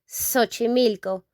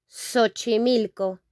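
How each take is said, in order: The two takes are said the same way.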